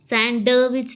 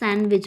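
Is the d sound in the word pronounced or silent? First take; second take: pronounced; silent. First: The d sound is pronounced in the middle. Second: The d sound is left out entirely. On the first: The speaker calls it wrong. "सैंडविच नहीं बोलते" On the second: The speaker calls it right. "सैंडविच बोलते हैं"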